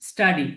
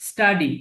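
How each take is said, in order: No difference in how they are said.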